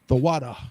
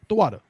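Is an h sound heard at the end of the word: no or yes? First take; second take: yes; no. First: It ends with an audible h sound. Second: It is said quickly with no final h. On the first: The speaker calls it right. "That ha will be present at the end" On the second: The speaker calls it wrong. "you'll hear brothers saying it quickly"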